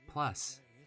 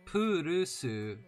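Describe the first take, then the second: First: It is one syllable with no added vowels. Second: It has vowels added between and after consonants. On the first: The speaker calls it right. "no plus" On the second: The speaker calls it wrong. "don't go Purusu"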